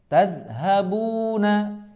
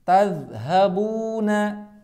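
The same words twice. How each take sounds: Both takes have the same delivery.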